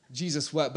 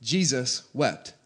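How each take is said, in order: First: Said in the usual way. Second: Very slow, each word given its own weight; slow and weighty. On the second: Shown as a demonstration. Pastor asking the church to ponder the verse, slow and weighty. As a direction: let Jesus wept sink in slowly. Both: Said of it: "But think about that for a second".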